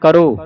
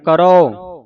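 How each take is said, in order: First: The final vowel is a closed 'o' sound. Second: The final vowel is an open 'au' sound. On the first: "ਕਰੋ ਹੁੰਦਾ ਕੱਕਾ ਰਾਰੇ ਹੋੜਾ ਕਰੋ" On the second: "ਊੜੇ ਔਂਕੜ ਆਉਂਦਾ ਹੈ ਉਦੋਂ ਮੂੰਹ ਥੋੜਾ ਜਿਹਾ ਖੋਲ ਕੇ ਉਚਾਰਨ ਕਰਨਾ ਹੈ"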